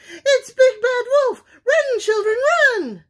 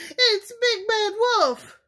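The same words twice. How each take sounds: First: High, loud frantic hen cry; terrified mother hen, much higher and louder; panicked squawk. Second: Much higher, louder panicked cry; a startled mother goose shrieking; frightened cry. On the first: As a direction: shriek for the chicks to flee. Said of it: "squawked Missus Chicken". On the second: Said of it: "cried Missus Goose". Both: A narrator's reading.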